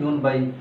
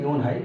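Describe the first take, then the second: First: The counter starts with a b sound. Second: The counter starts with an h sound. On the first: "সাধারণত ইউন বাই বলা হয় এখানে" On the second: "ইউন হাইও বলা যায়"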